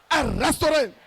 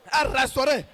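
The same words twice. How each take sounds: The two takes are said the same way.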